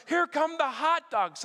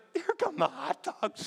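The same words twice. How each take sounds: First: Higher, slow announcement of a thrilled neighbour; excited announcement. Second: Higher, slow laughing call of a thrilled neighbour; excited announcement. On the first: Neighbour spotting the hot dog float, slow high excited call. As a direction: call it out slowly like the best news of the day. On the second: Tara recalling the neighbour spotting hot dogs, slow high laughing call. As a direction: call it out like the best news of the day. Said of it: "Tara was like". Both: Retold or imitated.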